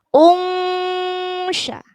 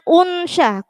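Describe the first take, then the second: First: The nasal hum is held for three beats. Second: The nasal hum is cut too short. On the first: The speaker calls it right. "dengungnya tiga ketukan" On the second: The speaker calls it wrong. "jangan unsya, kurang"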